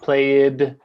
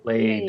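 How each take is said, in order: First: The ending is said as an extra syllable. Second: The ending is said as a plain D sound. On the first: The speaker calls it wrong. "it's not played" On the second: The speaker calls it right. "played has a D sound"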